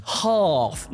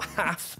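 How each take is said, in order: First: HALF with a long drawn-out "ah", as in father; southern long vowel. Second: HALF with a short "a", as in cat; mock the short northern "a" in half; northern short vowel. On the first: Acted. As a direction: correct them with a stretched open "ah" in half. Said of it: "it's pronounced half". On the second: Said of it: "not half".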